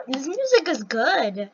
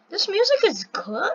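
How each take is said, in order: First: "good" falling as a slow statement; approving. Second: "good" lifted into a question; higher, rising tune ending on "good". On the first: Streamer deciding the music is good, approving. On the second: Streamer reacting to the game music, questioning. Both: Real, not acted.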